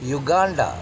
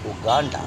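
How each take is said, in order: First: The word begins with a 'yoo' sound. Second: The word begins with an 'oo' sound. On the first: The speaker calls it wrong. "അങ്ങനെയാണെങ്കിൽ യൂറോപ്പ് എന്നുള്ള യൂറോപ്പ് എന്ന് പറയേണ്ടി വരും" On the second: The speaker calls it right. "They pronounce"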